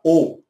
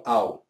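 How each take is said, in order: First: "o" as a pure hollow vowel, no glide; rounded, hollow "o"; hollow O sound. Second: "ao" as a glide from A to U; "ao" gliding like "au"; rejected "ao" sound. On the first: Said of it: "Esse som é oco, tendendo para o". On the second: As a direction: say "ao" as an open diphthong. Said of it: "não ao". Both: Shown as a demonstration.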